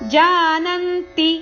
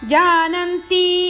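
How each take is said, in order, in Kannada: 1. ಅಂತಿಮ ಸ್ವರವನ್ನು ಹ್ರಸ್ವವಾಗಿಯೇ ಇಡಲಾಗಿದೆ. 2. ಅಂತಿಮ ಸ್ವರವನ್ನು ದೀರ್ಘವಾಗಿ ಎಳೆಯಲಾಗಿದೆ. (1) "ಇಲ್ಲಿ ತಿ ಅಕ್ಷರ ಹ್ರಸ್ವ ಇದೆ" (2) "ಜಾನಂತಿ ಅಲ್ಲ"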